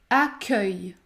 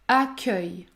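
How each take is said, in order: The two takes are said the same way.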